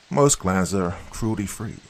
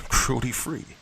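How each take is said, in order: First: Said in the usual way. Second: "Cruelty-free?" thrown back higher with a scornful rise; mock the phrase "Cruelty-free?" in disbelief; derisive echo. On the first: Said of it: "Ma replied with a rehearsed tone". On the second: A narrator's reading. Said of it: "I laughed derisively".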